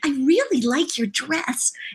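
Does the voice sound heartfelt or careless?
heartfelt. A little girl's voice, meant from the heart.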